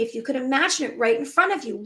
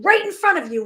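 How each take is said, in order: First: Said in the usual way. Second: "right in front of you" pitched high and louder, leaning on "right"; "right in front of you" lifted and stronger than the first time; emphatic repeat. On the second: Shown as a demonstration. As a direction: push "right in front of you" up and out, landing hard on "right".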